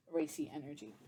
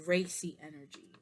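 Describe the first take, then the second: First: "Racy energy" repeated softly to herself; quiet musing repeat of "Racy energy"; soft echo. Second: Said in the usual way. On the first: Shown as a demonstration. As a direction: murmur "Racy energy" back, much softer.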